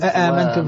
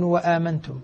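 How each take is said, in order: First: The word begins with a glottal stop. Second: The word begins with a w sound. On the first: This is the original form of the word. "بالأصل" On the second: The word is joined to what comes before it. "يبدل الأولى واوا ويسهل الثانية"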